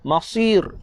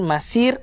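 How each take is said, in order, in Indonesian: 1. Bunyi s berat dan tebal. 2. Bunyi s ringan dan tipis. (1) "tebal lagi" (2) "jangan dibaca dengan huruf sin. Masir, salah"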